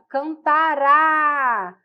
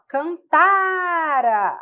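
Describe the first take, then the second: First: The stress is on the last syllable. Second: The stress is on the middle syllable. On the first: The verb is in the future tense. "tônico, forte, é futuro" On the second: The verb is in the pluperfect tense. "a sílaba tônica é o tá. Esse ra é átono, é fraco"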